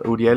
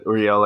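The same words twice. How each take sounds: First: The name is pronounced the Spanish way. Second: The name is pronounced the English way. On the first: "Uriel is how you say it in Spanish" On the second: "but Uriel, I guess"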